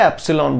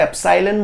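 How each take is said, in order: First: एप्सिलॉन pronounced "EP-si-lon"; short-i pronunciation. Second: एप्सिलॉन pronounced "ep-SIGH-len"; long-i pronunciation. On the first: Teacher reassuring students about variants, एप्सिलॉन as "EP-si-lon". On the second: Teacher reassuring students about variants, एप्सिलॉन as "ep-SIGH-len". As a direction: make the second syllable of एप्सिलॉन rhyme with "sigh". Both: Shown as a demonstration. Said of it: "अलग-अलग सुनाई दे".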